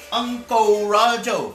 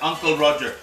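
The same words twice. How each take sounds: First: "Uncle Roger" said high and slow, as "Ungkoh Rajoh" in a mock Chinese-Malaysian accent. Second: Said in the usual way. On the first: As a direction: stretch "Uncle Roger" in a hammed-up Uncle Roger imitation. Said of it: "That's how he talks". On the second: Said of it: "Like that. That's how he talks".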